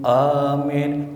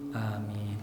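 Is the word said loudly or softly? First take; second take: loudly; softly. First: It is said loudly and forcefully. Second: It is said softly and quietly.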